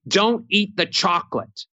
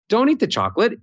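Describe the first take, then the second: First: The pitch stays flat on one note. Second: The pitch moves up and down with melody. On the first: The speaker sounds angry. The speaker calls it wrong. "sounds angry, no melody, monotone, one note" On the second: The speaker does not sound angry. The speaker calls it right. "It immediately diffuses. I'm not mad because if I have melody"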